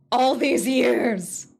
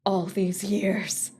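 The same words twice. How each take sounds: First: Slow loud anguished cry; anguished outburst. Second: Slow despair. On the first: Louder slow repeat. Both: Acted.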